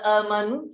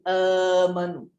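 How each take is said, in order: First: A glottal stop comes before the m. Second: A long vowel comes before the m. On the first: "daripada amanu" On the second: "Huruf hamzah yang kedua kita tukarkan kepada huruf mad"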